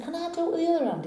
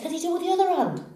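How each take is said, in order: First: High, quick, softer echoed question; cowboy's echo. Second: High, fast excited question; eager barman. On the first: Cowboy repeats barman's challenge, quick echo. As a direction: echo it back fast and softly, pitched up. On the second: Barman asks cowboy for another trick, eager. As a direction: ask it quickly, pitched right up. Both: Acted.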